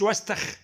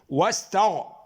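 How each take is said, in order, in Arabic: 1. يُنطق بصوت خاء مهموس kh. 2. يُنطق بصوت غين مجهور gh.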